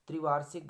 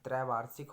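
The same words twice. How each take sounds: First: त्रिवार्षिक starting 'tri', punched louder; wrong form. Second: त्रैवार्षिक starting 'trai'; correct form. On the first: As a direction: open त्रिवार्षिक with short 'i'. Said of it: "गलत हो गया". (त्रिवार्षिक, शुरू में 'त्रि') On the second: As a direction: open त्रैवार्षिक with an 'ai' vowel. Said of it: "होता है". (त्रैवार्षिक, शुरू में 'त्रै') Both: Shown as a demonstration.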